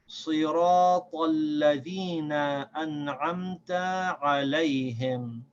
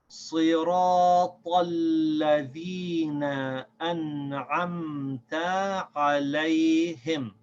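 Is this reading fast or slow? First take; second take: fast; slow. First: It is read at a quicker pace. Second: It is read at a slower pace.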